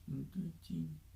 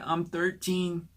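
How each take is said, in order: First: It is said very quietly, barely audible. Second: It is said a little louder.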